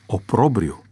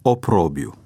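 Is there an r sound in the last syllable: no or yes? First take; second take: yes; no. First: The second r sound is pronounced. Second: The second r sound is left out. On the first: The speaker calls it right. "care corect, se pronunță oprobriu" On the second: The speaker calls it wrong. "a comis greșeala să suprime consoana R"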